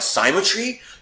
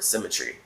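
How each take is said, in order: First: The first syllable sounds like 'sigh'. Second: The first syllable sounds like 'sim'. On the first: The speaker calls it wrong. "they'll be saying that like symmetry" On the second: The speaker calls it right. "no, it's the word symmetry"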